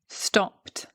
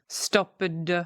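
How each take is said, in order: First: The ending is a plain t sound. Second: The ending is not a plain t sound. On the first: The speaker calls it right. "You've got a t sound at the end" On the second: The speaker calls it wrong. "I'm not saying"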